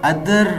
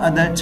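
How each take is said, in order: First: The final r sound is clearly pronounced. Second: The final r sound is dropped. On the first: The speaker calls it wrong. "अदर को अदर pronounce नहीं करेंगे, that is wrong" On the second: The speaker calls it right. "रा sound को आप pronounce नहीं करेंगे"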